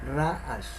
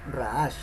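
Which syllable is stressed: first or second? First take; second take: first; second. First: The stress is on the first syllable. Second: The stress is on the second syllable. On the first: The speaker calls it right. "sino ra'ash, ra, o sea, el acento lo lleva en la primera sílaba" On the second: The speaker calls it wrong. "no ra'ash"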